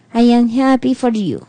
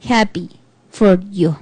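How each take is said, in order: First: "I am happy for you" said without any joy; flat fake joy. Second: "Happy for you" lower, trailing off, even more lifeless; flatter fake joy. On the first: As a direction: say it like you don't mean it. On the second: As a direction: let the happy words sink and die away. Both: Shown as a demonstration. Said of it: "No implica nada".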